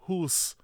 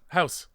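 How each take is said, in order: First: The vowel is a long 'oo' sound. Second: The vowel is a diphthong like 'ow'. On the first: This is a stereotype the speaker denies using. The speaker calls it wrong. "We don't say hoose" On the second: This is how the speaker really says it. The speaker calls it right. "Same thing"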